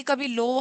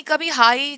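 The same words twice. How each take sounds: First: Slightly dropped, softer voice on लो; low pitch. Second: Slightly raised, stronger voice on हाई; high pitch. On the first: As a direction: let लो sink a little to show low pitch. (हल्की नीची, धीमी आवाज़ में) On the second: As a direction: lift हाई a little to show high pitch. (हल्की ऊँची आवाज़ में) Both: Shown as a demonstration. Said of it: "ये लो और हाई जो हमारा पिच".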